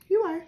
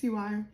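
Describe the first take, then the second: First: "You are" said higher and louder, stress on You; emphatic "You are". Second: Said in the usual way. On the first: Real, not acted. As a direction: insist on "You are", punching You. Reassuring reader repeats herself.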